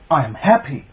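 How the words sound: It is said with warm, excited feeling. The speaker calls it right. "with some love and some excitement to it"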